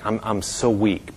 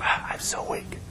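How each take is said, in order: First: Very soft, low-voiced weakness; weak whisper. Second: Breath-only whisper, almost inaudible; weak whisper. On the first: Sick woman telling her visitor she is weak, soft near-whisper. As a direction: imitate a frail patient, barely voiced. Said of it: "she was just whispering". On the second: Retold or imitated. Sick woman whispering to her visitor, frail voiceless whisper. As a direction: whisper it with no strength left. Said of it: "But she was whispering".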